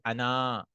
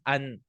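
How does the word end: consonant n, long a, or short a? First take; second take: long a; consonant n. First: The word ends in a long a vowel. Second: The word ends on the n, no vowel. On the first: "This alif is written but never read. You'll never say Ana" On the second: "will read it as An"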